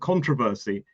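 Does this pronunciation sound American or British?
American. It is said with an American pronunciation. "Americans only say something closer to controversy"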